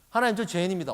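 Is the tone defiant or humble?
defiant. It is said in a defiant, careless tone. The speaker admits it grudgingly and shifts the blame.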